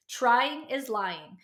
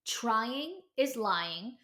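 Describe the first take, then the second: First: Each word slow and weighted, "Trying is lying"; slow emphatic slogan. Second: "Trying is lying" stretched out slowly; slow emphatic slogan. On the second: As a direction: lean on every word of "Trying is lying". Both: Real, not acted.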